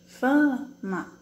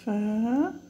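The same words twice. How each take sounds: First: "Fama" with "fa" punched and falling; stress on FA. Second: "Fama" broken slowly into fa and ma; teacher spelling out "Fama" syllable by syllable; syllables split apart. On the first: Teacher to pupils, showing the stressed syllable: "Fama" with "fa" stressed. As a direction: hit the first syllable of "Fama" hard. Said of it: "Qual que é a sílaba mais forte". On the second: Teacher to pupils, separating syllables: "Fama" split into fa-ma. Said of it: "Como eu separo fama". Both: Shown as a demonstration.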